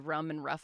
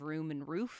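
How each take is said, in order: First: The words are said with a Boston-style vowel. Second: The words are said with a general, non-Boston vowel. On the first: "weird like Boston holdovers. Like I say rum and rough" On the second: "instead of room and roof"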